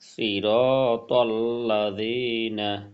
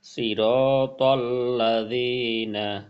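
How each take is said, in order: Both takes have the same delivery.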